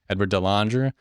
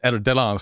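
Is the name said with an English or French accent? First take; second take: English; French. First: The name is said with an English accent. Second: The name is said with a French accent.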